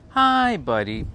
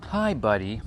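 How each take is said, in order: First: Louder, higher hi buddy; mock greeting. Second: Said in the usual way. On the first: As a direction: throw the hi buddy up and out. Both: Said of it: "repeating the greeting".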